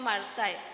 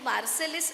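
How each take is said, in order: First: The name ends with a long 'aay' sound. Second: The name ends with a sounded 'lis'. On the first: The speaker calls it right. "दोन उच्चार आहेत" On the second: The speaker calls it wrong. "असं त्याचं नाव नाही"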